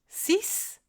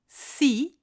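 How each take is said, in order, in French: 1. La consonne finale se prononce s. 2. La consonne finale est muette. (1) "à la fin d'une phrase, seul ou dans un calcul" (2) "s'il est suivi d'un mot qui commence par une consonne"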